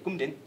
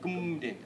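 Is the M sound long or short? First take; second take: short; long. First: The M sound is short. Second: The M sound is held long. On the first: The speaker calls it wrong. "You're not saying kumdin" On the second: The speaker calls it right. "That M is elongated"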